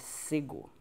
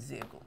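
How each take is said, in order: First: The name begins with an s sound. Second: The name begins with a z sound. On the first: The speaker calls it right. "o certo da pronúncia é cego" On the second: The speaker calls it wrong. "Sempre pronunciei errado"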